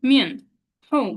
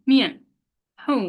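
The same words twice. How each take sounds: The two takes are said the same way.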